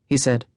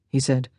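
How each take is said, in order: No difference in how they are said.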